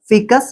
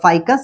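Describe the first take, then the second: First: The first vowel sounds like 'ee'. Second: The first vowel sounds like 'eye'. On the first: "কেউ ফিকাস বলে" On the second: "কেউ ফাইকাস বলে"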